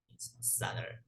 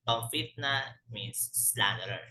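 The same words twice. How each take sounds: First: Soft whisper of the meaning; whispered repeat. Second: Said in the usual way. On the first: Shown as a demonstration. Teacher whispers the meaning again to the class. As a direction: whisper it under your breath. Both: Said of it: "teacher repeats the word meaning".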